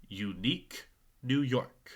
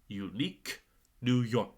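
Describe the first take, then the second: The two takes are said the same way.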